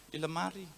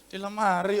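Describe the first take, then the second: First: Very soft, low reply; quiet answer. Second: Soft, low reply; quiet answer. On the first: Wife answering husband about the fish, very quietly. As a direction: answer under your breath, low. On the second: Wife answering the third call, still quietly. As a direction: answer softly, without raising it. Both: Acted. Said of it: "tapi pelan".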